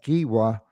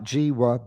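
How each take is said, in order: First: The name begins with a hard G sound. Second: The name begins with a soft J sound. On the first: The speaker calls it right. "I think that is the pronunciation" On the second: The speaker calls it wrong. "not Jiwa"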